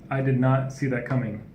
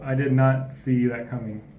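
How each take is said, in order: First: The phrase is said at a normal speed. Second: The phrase is said more slowly and drawn out.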